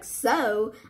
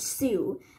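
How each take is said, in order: First: The word ends with an 'oh' vowel. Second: The word ends with an 'oo' vowel. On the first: The speaker calls it right. "now since I know this word pronounced like so" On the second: The speaker calls it wrong. "At first, I used to pronounce this word Sue"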